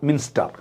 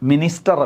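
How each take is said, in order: First: It is said with two syllables, min-ster. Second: It is said with three syllables, mi-nis-ter. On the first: The speaker calls it right. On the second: The speaker calls it wrong. "മിനിസ്റ്റർ അല്ല"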